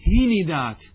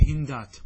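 First: هندات as "hi-ni-daat", i after the n, loud; echoed kasra. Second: هندات as "hin-daat", no vowel after n; unchanged middle consonant. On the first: Teacher demonstrates vowel echo to students, هندات as "hi-ni-daat". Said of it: "أن تكسر الحرف الثاني إتباعا له". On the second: Teacher offers students the unchanged option, هندات as "hin-daat". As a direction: leave the n closed onto d in هندات. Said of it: "كما هو". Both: Shown as a demonstration.

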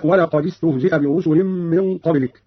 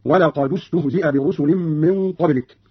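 First: Said in the usual way. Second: ولقد استهزئ linked as "walaqadu-stuhzi'a"; slow recitation, "du" joining ولقد to استهزئ; u vowel on dal. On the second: Shown as a demonstration. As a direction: put an u after the d of ولقد. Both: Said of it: "قرأ قالون بضم أولى الساكنين وهو الدال".

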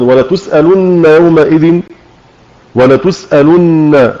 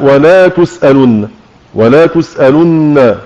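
First: Said in the usual way. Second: ولا تسألن with an added long alif; mistaken added alif. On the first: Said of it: "يقرأ". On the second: Shown as a demonstration. Teacher demonstrating the added-letter error to students, slow. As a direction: stretch ولا in تسألن, a wrong reading. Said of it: "هذا خطأ".

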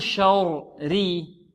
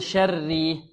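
First: "شري" drawn out with a dark, rounded first syllable; wrongly heavy raa. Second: "شري" with a thin doubled raa; light raa. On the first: Teacher offers the wrong option, slow heavy raa in "شري". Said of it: "هل نقول". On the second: Teacher offers the right option, thin raa in "شري". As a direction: keep both raas of "شري" light. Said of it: "أو نقول". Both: Shown as a demonstration.

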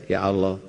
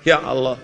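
First: Low, lingering sulky "Ya Allah"; a reproachful wife praying; complaining prayer. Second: Complaining prayer. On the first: Retold or imitated. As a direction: moan "Ya Allah" like a grievance to God. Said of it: "Nggak usah ngomong gitu". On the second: Shown as a demonstration.

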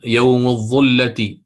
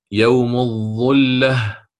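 First: يوم الظلة read slowly, the ظ of الظلة given its full weight; slow example reading. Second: يوم الظلة stretched very slowly, lingering on each sound; drawn-out model repeat. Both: Shown as a demonstration. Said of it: "الظا هنا مضمومة".

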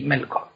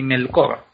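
First: "Melkor" stressed on MEL; correct first-syllable stress. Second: "Melkor" stressed on the last syllable, KOR; wrong final stress. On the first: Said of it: "el acento nunca va". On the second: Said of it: "Ni Melkor". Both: Shown as a demonstration.

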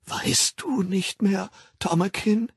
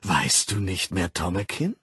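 First: Hushed, trembling whisper. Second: Said in the usual way. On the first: Acted. Linda begging the director to remember her, trembling whisper. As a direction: plead in a slow, shaky whisper. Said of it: "wiederholte sie mit bebender Stimme".

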